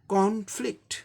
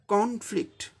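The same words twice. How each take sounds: First: The stress is on the first syllable. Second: The same.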